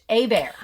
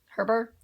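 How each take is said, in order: First: It starts with no H, sounding like a bear. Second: It starts with an H sound, every letter voiced. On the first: "Without the H. A Bear" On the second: "I would say it differently just because I say all the letters"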